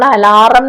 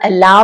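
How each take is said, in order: First: An r sound is said in the middle. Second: No r sound is said in the middle. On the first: The speaker calls it wrong. "മലയാളത്തിൽ പലപ്പോഴും നമ്മൾ അലാറം എന്നൊക്കെ പറയാറുണ്ട്" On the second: The speaker calls it right. "ആർ silent ആണ്, അലാം എന്ന് തന്നെ പറയണം"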